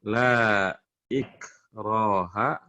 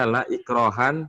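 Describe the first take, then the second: First: The word ends in a plain vowel, without n. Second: The word ends with an added n sound. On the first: The speaker calls it right. "Kenapa dibaca ikroha?" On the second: The speaker calls it wrong. "Tidak dibaca la ikrohan fiddin"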